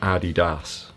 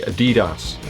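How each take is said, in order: First: The name is said the European way. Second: The name is said the non-European way. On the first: "you feel the European inside of you coming out, you go for" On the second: "up to the point where I was about eight or nine, I used to say"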